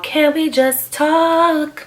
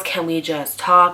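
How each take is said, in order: First: High and very slow, drawn-out pleading; whiny pleading ex. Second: Said in the usual way. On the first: Retold or imitated. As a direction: stretch it out like a needy ex begging. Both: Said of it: "leaving me voicemails".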